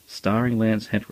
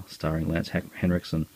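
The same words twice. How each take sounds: First: "starring" said with slightly higher, pointed emphasis; meaningful emphasis. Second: Said in the usual way. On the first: Shown as a demonstration. To viewers, crediting Lance Henriksen sincerely, emphatic "starring". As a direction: lean on "starring" like you finally mean it. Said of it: "and mean it". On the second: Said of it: "for once, I can actually say".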